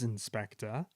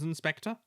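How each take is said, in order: First: Lower, softer, patient. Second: Said in the usual way. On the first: A narrator's reading. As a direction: explain gently and patiently. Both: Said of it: "he explained patiently".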